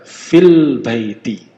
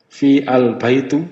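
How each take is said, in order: First: "Fil baiti" run together, fi straight into l; slow, loud "Fil baiti" with the alif silent; alif not read. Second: "Fi al-baitu" with the a of al sounded; "Fi al-baitu", alif not dropped; hamzah wrongly pronounced. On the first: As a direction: stretch "Fil", dropping the a of al. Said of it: "Enggak dibaca ini". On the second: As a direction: say "Fi al-baitu" as separate words. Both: Shown as a demonstration.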